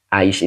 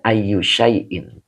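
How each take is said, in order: First: It is shortened into one clipped syllable. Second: It is said in full as two words. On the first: This is the everyday colloquial form. "Ini bahasa pasaran ya" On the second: This is the original full form. "sebetulnya aslinya"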